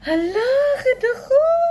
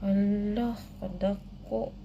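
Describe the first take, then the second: First: It is said in a happy tone. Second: It is said in a disappointed tone. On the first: "Happy guys, happy. First, happy" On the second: "disappointed daw"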